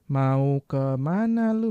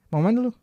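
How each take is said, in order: First: "Mau ke mana lu?" stretched slowly, every word separate; slow full form. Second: "Mau mana lu?" fired off higher in one go; quick casual form. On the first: Teacher contrasting unnatural careful speech, slow "Mau ke mana lu?". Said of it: "Beda kan?". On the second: Teacher showing everyday speech, quick "Mau mana lu?". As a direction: rattle off "Mau mana lu?", words squashed together. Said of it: "Udah cepet aja". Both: Shown as a demonstration.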